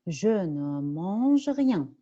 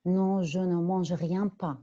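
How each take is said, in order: First: Slow with "rien" falling at the end; slow model answer for the class; correct answer. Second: Rien pas stretched out slow as a deliberate mistake; slow demo of a wrong double negation; wrong answer. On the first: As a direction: say "rien" clearly and let it fall. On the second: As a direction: drag out "rien pas" to show the error. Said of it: "je ne peux pas répondre comme ça". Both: Shown as a demonstration.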